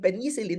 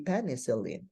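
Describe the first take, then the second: First: Penicillin said the Filipino way, stress on the first syllable; Filipino pronunciation. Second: Penicillin with the stress moved to the second syllable; corrected stress. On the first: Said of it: "pang Pilipino yon". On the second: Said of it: "The stress should be placed on the ... second syllable". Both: Shown as a demonstration.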